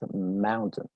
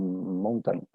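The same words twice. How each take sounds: First: The second syllable is reduced, almost disappearing. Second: The second syllable is said fully and clearly. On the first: The speaker calls it right. "La pronunciación correcta es mountain" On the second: The speaker calls it wrong. "Muy probablemente la pronuncias como mountain, algo así"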